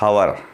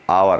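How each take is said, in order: First: The word starts with an h sound. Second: The word starts without an h sound. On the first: The speaker calls it wrong. "not hour" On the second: The speaker calls it right. "we are muting this H sound"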